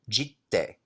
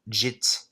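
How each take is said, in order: First: The word ends with a clear final vowel. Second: The word ends on a consonant with no vowel. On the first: The speaker calls it right. "So J I T T E" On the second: The speaker calls it wrong. "please don't say umezawa's jit because uh, Japanese does not drop any vowel sounds"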